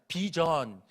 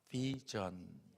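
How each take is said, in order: First: The first sound is made with both lips. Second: The first sound is made against the lower lip. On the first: Americans would not understand it. The speaker calls it wrong. "그냥 비전 이름은 미국 사람들이 못 알아들어요" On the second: Americans would understand it. The speaker calls it right. "요 아래 입술을 살포시 물으면서 비전"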